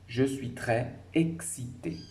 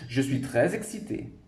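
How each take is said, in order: First: It is read slowly and carefully. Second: It is read quickly with the words linked. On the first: "si je parle doucement" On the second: "si je le dis très vite, je vais faire des liaisons"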